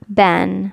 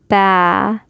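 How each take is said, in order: First: It ends in a short a plus n. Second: It ends in a long a vowel, no n. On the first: The reader continues past this word. "we would normally just not pronounce that aleph. It would just be ban" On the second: The reader stops on this word. "We'd say ba, and do two harakat"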